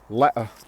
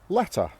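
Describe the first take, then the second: First: The T sound is dropped. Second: The T sound is clearly pronounced. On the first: "say them but dropping the T sound" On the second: "That's the received pronunciation version"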